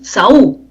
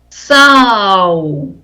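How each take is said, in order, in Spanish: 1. El acento cae en la vocal U. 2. El acento cae en la vocal A. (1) "No es Saú" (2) "mayor fuerza de voz en la A"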